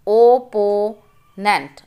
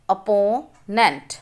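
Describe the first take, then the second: First: opponent read slowly in parts; slow syllable reading. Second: Said in the usual way. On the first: Shown as a demonstration. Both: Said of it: "Read the multi-syllable words".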